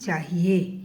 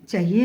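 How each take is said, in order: First: The first-syllable vowel is long. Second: The first-syllable vowel is short. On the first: The speaker calls it right. "बड़े आ की मात्रा" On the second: The speaker calls it wrong. "नहीं"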